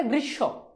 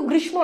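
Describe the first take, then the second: First: "গ্রীষ্ম" with silent ম and doubled sh; correct pronunciation. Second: "গ্রীষ্ম"-এ ম স্পষ্ট উচ্চারিত; ভুল উচ্চারণ. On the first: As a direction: say "গ্রীষ্ম" as grish-sho. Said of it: "উচ্চারণটা গ্রীষ্ম". ("গ্রীষ্ম"-এ ম বাদ দিয়ে শ দ্বিত্ব) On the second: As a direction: say "গ্রীষ্ম" with the ম sounded, as grishmo. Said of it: "উচ্চারণটা কিন্তু গ্রীষ্ম না". ("গ্রীষ্ম" শব্দে ম-ফলার ম উচ্চারণ করে) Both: Shown as a demonstration.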